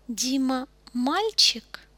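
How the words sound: It is said with question intonation. The speaker is asking whether Dima is a boy. "Обращайте внимание на интонацию, когда я задаю вопросы"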